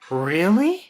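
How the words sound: The pitch rises high at the end. The speaker is excited about it. "we'll go higher at the end of the question"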